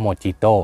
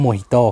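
First: Mojito said mo-JEE-to with a hard j sound; wrong Thai reading. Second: Mojito said mo-HEE-to with an h sound; correct Spanish reading. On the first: Host demonstrating the common wrong reading: Mojito with a j. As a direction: read Mojito the way Thai people get it wrong, with a j. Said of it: "แต่จริงๆ อ่า มันอ่านว่า Mojito". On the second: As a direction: say Mojito properly, the j as an h. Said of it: "มันอ่านว่า Mojito ครับ". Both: Shown as a demonstration.

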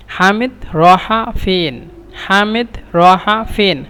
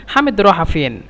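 First: Half-speed model phrase for learners; slow teaching repetition. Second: Said in the usual way. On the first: Shown as a demonstration. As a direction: say it slowly, word by word, drawn out. Teacher repeats phrase slowly for learners. (ধীরে ধীরে, টেনে টেনে শেখানোর ভঙ্গিতে)

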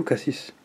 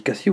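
First: "cassis" with final s sounded; pronunciation of cassis. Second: "cassis" with silent final s; pronunciation of cassis. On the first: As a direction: say "cassis" ending in a clear s sound. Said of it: "Moi, je dis cassis". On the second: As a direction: say "cassis" as "cassi", dropping the last sound. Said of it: "ça se dit cassis ou cassis?". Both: Shown as a demonstration.

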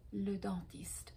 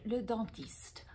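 First: Breathy whispered le dentiste for the class; whispered echo. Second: Said in the usual way. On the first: Shown as a demonstration. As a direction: repeat le dentiste in a soft whisper. (le dentiste chuchoté) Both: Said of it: "On the other side is le".

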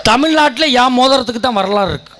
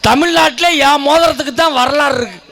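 First: தமிழ்நாட்டுல leaned on, தான் only lightly; stress on தமிழ்நாட்டுல. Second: தான் lifted high and hit hard, the rest quick; stress on தான். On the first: Repeating the boast to the crowd, weight on தமிழ்நாட்டுல. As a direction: open on தமிழ்நாட்டுல and press it. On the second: Boasting to the crowd, தான் hit high and hard. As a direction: punch தான் and ring it out. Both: Shown as a demonstration. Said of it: "repeats the line for effect".

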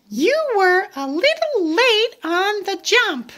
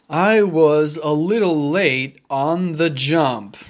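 First: High little pig voice; Piggy telling Gerald he jumped late, high voice. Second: Gerald voice. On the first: Piggy tells Gerald he's late. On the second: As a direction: lower big elephant voice. Gerald admits he was late. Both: Acted.

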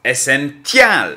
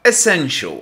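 First: Essential said slowly, every letter sounded as written, a hard t; spelling pronunciation. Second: Essential said the spoken English way, quick and swallowed; spoken pronunciation. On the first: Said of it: "Jak się go pisze?". (Essential powoli, literowane tak, jak się pisze) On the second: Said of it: "Jak się go czyta?". (wymowa Essential, szybko i miękko) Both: Shown as a demonstration.

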